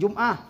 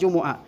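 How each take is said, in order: First: The word is said with two syllables. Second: The word is said with three syllables. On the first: The speaker calls it wrong. "bukan Jum'ah" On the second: The speaker calls it right. "tapi yaumal jumu'ah"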